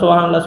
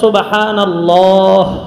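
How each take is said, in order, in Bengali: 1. এটা তাড়াহুড়ো করে বলা হয় এবং h উচ্চারণটি বাদ পড়ে যায়। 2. নিঃশ্বাস থেমে যায়, তাই h উচ্চারণটি স্পষ্ট শোনা যায়। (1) "শুদ্ধ না।" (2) "এই যে হাটা শেষ হয়েছে, হাটা তো সাকিন"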